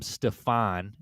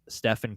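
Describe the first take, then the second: First: The name is pronounced as Stefan. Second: The name is pronounced as Stephen. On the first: The speaker calls it wrong. "mispronounced Curry's name, calling him Stefan" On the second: The speaker calls it right. "instead of Ste- Ste- Stephen Curry"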